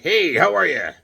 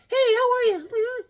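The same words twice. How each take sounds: First: Loud, slightly raised chummy greeting; playful toy voice, a bit high; Hawkman. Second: Very high falsetto bride voice; mock-feminine falsetto hello; lovely bride. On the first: Pretend. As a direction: greet loudly as a chilling action figure. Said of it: "Here's Hawkman chilling". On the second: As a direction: squeak a greeting as the bride doll. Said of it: "here's his lovely bride".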